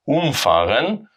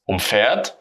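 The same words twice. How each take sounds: First: Umfahren with a strong UM, fahren light; stress on um. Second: Umfährt with the weight on fährt, um light; stress on fähr. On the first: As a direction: punch um, let fahren fall away. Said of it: "we have the stress on the prefix". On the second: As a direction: lean into fährt, keep um unstressed. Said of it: "because we have the stress on fair". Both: Shown as a demonstration.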